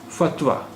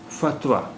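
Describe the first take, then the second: No difference in how they are said.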